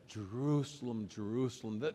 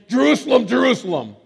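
First: The name is said in a tender, compassionate tone. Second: The name is said in a stern, scolding tone. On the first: The speaker cares deeply for the one addressed. The speaker calls it right. "There's just compassion oozing out" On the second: The listener is in trouble. The speaker calls it wrong. "Kind of like when I was a kid. And I heard the term [name], I knew I was in trouble"

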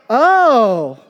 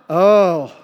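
First: It sounds pleased by unexpected good news. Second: It sounds pained, wincing at someone's hurt.

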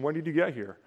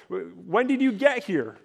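First: It is asked as a plain, neutral question. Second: It is asked in an annoyed, accusing tone.

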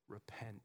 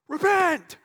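First: It is said gently and tactfully. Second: It is said harshly and forcefully. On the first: It is a caring call to change. The speaker calls it right. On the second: It is a blunt, untactful demand. The speaker calls it wrong.

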